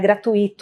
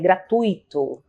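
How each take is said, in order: First: The i is separated and carries the stress. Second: The u and i are joined together. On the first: The speaker calls it wrong. "não tem essa separação e esse acento tônico no, no i" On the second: The speaker calls it right. "você fala juntinho esse u e o i"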